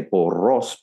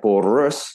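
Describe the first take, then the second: First: Porros with a clean, full final o; clear learner pronunciation. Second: Porros with the last o blurred to a schwa; muddy the final vowel of porros; mispronounced vowel. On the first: Coach showing a non-native but very clear porros. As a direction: say both o's of porros distinctly. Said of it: "maybe it doesn't sound exactly like a native". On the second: Coach showing a learner's pronunciation error, porros with a blurred ending. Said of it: "that's a pronunciation error". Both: Shown as a demonstration.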